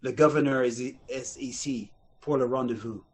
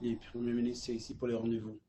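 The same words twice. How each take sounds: First: Clumsy English-tinged French; bad fake French. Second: Low, soft Quebec French; real French. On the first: Rival actor bluffing the audition line, bad French accent. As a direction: stumble through it in phony French. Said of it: "everybody else was coming in going". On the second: Retold or imitated. Bodyguard reporting into his hand, understated real French. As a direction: deliver it quietly in genuine Quebec French. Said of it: "knows how to speak real French".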